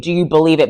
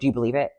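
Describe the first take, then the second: First: It is said with strong, forceful emphasis. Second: It is said in a cool, casual way.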